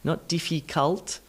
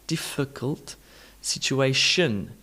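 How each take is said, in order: First: The last vowel is a full 'o' sound. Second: The last vowel is a reduced 'uh' sound. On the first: The speaker calls it wrong. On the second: The speaker calls it right. "Un, un, not on"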